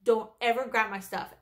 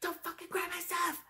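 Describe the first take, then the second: First: Said in the usual way. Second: High-pitched mock yell, volume held down; retold yelling. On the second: Coworker yelling in front of everyone, imitated in a high, soft mock yell. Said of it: "like, yelling all her, all the way out".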